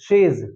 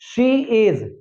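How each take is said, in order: First: It is said as one contracted syllable. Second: It is said as two full words.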